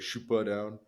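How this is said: It is said with a Quebec French accent.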